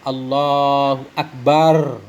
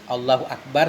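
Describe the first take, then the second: First: The ba syllable of Akbar is drawn out. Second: No syllable is drawn out long. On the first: The speaker calls it wrong. "ba akbarnya panjang" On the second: The speaker calls it right. "sebagaimana yang sering kita baca"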